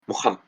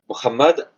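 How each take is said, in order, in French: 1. La consonne du milieu est un son h soufflé. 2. La consonne du milieu ressemble à un R français.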